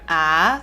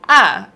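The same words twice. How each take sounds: First: It is said in second tone, rising. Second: It is said in fourth tone, going down. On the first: "second tone, it goes up" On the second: "fourth tone, it goes down"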